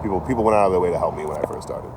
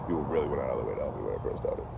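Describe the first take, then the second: First: Said in the usual way. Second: Quieter restatement. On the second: Real, not acted. Repeats the line more quietly.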